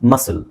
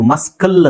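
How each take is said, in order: First: No k sound is heard in the middle. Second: A k sound is heard in the middle. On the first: The speaker calls it right. "ಸಿ ನ silent ಮಾಡ್ತೀವಿ" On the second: The speaker calls it wrong. "ಮಸ್ಕಲ್ ಅಂತ ಹೇಳಲ್ಲ"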